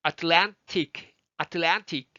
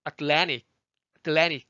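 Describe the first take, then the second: First: Atlantic with a clear T after the N; crisp released middle T in Atlantic; full T sound. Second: Atlantic as "at-LAN-ic"; American "Atlannic", T dropped; T turned into N. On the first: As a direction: sound out "at-LAN-tic" slowly. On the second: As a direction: swallow the middle T of Atlantic into the N. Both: Shown as a demonstration. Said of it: "T가 N으로 바뀌었네요".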